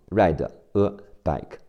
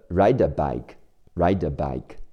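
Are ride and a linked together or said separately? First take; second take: separately; linked. First: Ride and a are said as separate words. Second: The d of ride links into a. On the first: The speaker calls it wrong. "不会分开读成ride a bike" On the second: The speaker calls it right. "会把ride 的的和后面的a 连起来"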